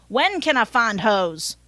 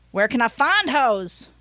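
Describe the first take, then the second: First: Southern driver's question, leaning on WHEN; Southern accent. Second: Southern driver's question, leaning on FIND; Southern accent. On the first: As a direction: ask it with a Southern twang, punching when. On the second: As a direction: ask it with a Southern twang, stretching find. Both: Acted. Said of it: "I gave him a Southern accent".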